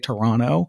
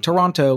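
First: The final t sound is dropped. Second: The final t sound is clearly pronounced. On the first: The speaker is a local of the city. The speaker calls it right. "we don't really pronounce the final T in Toronto" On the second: The speaker is not really from the city. The speaker calls it wrong. "we don't say Toronto"

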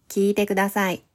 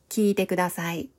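The two takes are said the same way.

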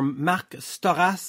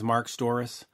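First: The surname is said the Quebec French way. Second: The surname is said the North American way.

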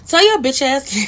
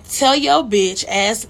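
First: It is said in a put-on imitating voice. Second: It is said in the speaker's own voice.

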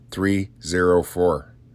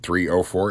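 First: The middle digit is read as zero. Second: The middle digit is read as oh. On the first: The speaker calls it right. "It's not an O. It's a zero" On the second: The speaker calls it wrong. "what I just did"

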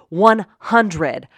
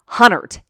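First: The middle d sound is clearly pronounced. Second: The middle d sound is dropped, giving hunnert. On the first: The speaker calls it right. "can you please tell your anchor in the afternoon to say 100" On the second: The speaker calls it wrong. "not Hunnert, H-U-N-N-E-R-T. She mispronounces it all the time"

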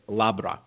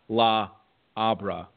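First: The two words merge into one word. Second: The two words are said as separate words. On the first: The speaker calls it right. "you just pronounce it as one" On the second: The speaker calls it wrong. "It's not La Abra"

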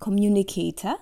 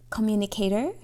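First: It is said in a non-American accent. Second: It is said in an American accent.

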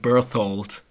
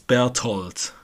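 First: The name is said with an English pronunciation. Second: The name is said with a German pronunciation. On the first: "in English I would call him Berthold" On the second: "No, not with the TH. I would say it's Berthold"

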